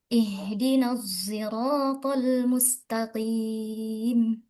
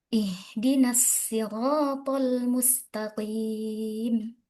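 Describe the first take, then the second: First: Sirat begins with an s blended toward z. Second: Sirat begins with a plain s sound. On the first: "membaca shad dengan biismam dengan ismam" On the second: "membaca as-sirat dengan sin"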